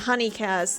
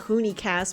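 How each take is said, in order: First: The first vowel sounds like the u in 'fun'. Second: The first vowel sounds like the oo in 'moon'. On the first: The speaker calls it right. "It is honey" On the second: The speaker calls it wrong. "everybody called it the Hoonie cast because of how it's spelled"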